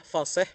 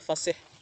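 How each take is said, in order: First: The i vowel is pronounced as e. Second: The i vowel is pronounced as i. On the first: The speaker calls it wrong. "Yang salah" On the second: The speaker calls it right. "yang benar adalah"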